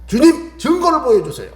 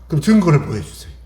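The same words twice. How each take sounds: First: Pleading prayer. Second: Said in the usual way. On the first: Acted. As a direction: beg God for proof. Moses pleading with God.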